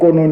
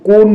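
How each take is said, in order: First: The word ends on an o sound. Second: The word ends on an n sound. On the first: "কয়কা দন্ত নয় ওকা পড়ি তাহলে আবার কেমন হচ্ছে" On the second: "এখানে বানান আছে কয়কা দন্তন্য কোন, আবার পড়ি"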